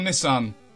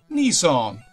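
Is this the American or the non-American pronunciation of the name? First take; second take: non-American; American. First: It is said in the speaker's usual, non-American way. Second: It is said the way some Americans say it.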